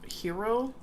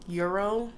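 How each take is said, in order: First: The word begins with an h sound, like hero. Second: The word begins with a y sound, like euro. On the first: "I've heard people say it like a hero" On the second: "or a euro"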